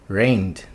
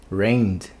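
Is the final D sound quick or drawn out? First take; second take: quick; quick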